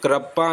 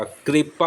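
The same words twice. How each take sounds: First: कृपा said as "krapa", with a short a; wrong pronunciation. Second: कृपा said as "kripa", with ri; correct pronunciation. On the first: Teacher showing students the mistaken कृपा, mispronounced as "krapa". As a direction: say कृपा with ra in place of ri. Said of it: "कृपा नहीं होता". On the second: Teacher correcting कृपा for students, pronounced slowly as "kripa". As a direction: give कृपा a clear ri after the k. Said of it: "कृपा होता है". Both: Shown as a demonstration.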